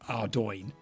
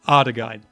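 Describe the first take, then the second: First: The name is said like 'Ardoin'. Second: The name is said like 'Ardegein'. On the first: This is the intended way of saying it. The speaker calls it right. "I know it's meant to be like Ardoin" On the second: This is the childhood way of saying it. The speaker calls it wrong. "that's how we said it when I was a kid"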